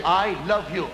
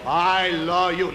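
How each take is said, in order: First: Said in the usual way. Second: I love you drawn out slowly with weight on I; slow dramatic line. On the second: Shown as a demonstration. Diction coach demonstrating I love you, slow and dramatic. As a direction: stretch I love you like a matinee idol. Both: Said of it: "All right, see this".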